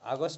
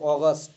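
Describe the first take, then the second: First: The first vowel is an open 'ah' sound. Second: The first vowel is a rounded 'aw' sound. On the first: The speaker calls it wrong. "হবে না" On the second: The speaker calls it right. "এটা হবে অগস্ট"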